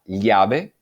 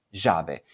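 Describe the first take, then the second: First: Llave with a palatal LL; standard llave. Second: Llave with the LL as zh, zhave; yeísmo. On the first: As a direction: say llave with LL as in Castilian. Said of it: "La palabra llave sería llave". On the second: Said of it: "sería". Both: Shown as a demonstration.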